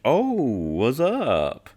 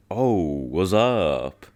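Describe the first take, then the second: First: Slow, stretched ad-lib, swooping higher; mock rapper ad-lib, very slow; drawn-out rapper ad-lib. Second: Slow, stretched mock ad-lib; lazy, slow hype ad-lib; drawn-out rapper ad-lib. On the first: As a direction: really draw it out and let the pitch swoop up. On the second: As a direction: draw it out like the rapper on the record. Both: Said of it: "I'll do my best to match his cadence".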